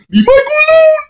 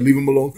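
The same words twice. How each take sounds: First: Very high, loud squealed plea; mock desperate scream. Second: Said in the usual way. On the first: Defending poor Michael online, hammed-up scream. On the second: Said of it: "And then I said".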